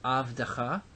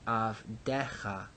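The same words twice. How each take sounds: First: Avdecha with the stress on the last syllable, avde-CHA; non-pausal avdecha. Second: Avdecha with the stress pulled back, av-DE-cha with an open e; pausal avdecha. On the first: Teacher giving students the non-pausal form, stressed last syllable. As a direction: say avdecha as avde-CHA, short final vowel, rising. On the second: Teacher giving students the pausal form, stress retracted. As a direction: say avdecha slower as av-DE-cha, falling at the end. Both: Shown as a demonstration. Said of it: "this form is not exactly the same as our form".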